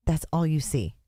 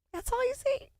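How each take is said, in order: First: Said in the usual way. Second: Very high squeaky repeat, softer; squeaky echo. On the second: Pretend. Streamer repeating her own line in a very high squeak.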